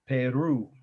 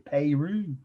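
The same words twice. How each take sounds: First: It is said with a standard pronunciation. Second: It is said with a Midwestern pronunciation. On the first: The speaker calls it right. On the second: The speaker calls it wrong.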